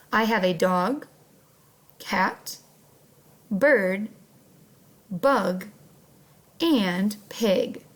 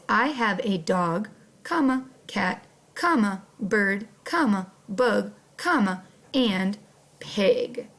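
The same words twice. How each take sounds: First: A short breath-pause after "dog", "cat", "bird" and "bug"; little pauses at commas. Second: Sentence read with each comma spoken: "dog, comma, cat, comma"; reading commas aloud. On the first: Teacher to first graders, modelling the list with pauses. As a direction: pause lightly at each comma, no word. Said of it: "we would say it like this". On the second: Teacher to first graders, naming each comma aloud. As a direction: say the word "comma" aloud at every break. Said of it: "I said the word comma each time I saw one". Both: Shown as a demonstration.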